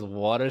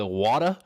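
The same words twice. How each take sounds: First: Said in the usual way. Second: Mimicking mom's Boston accent on "Water?", r dropped, rising; light Boston "Water?" like his mom asking; "Water?" with a hint of Boston, asked like a question. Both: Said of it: "a little bit of a Boston accent".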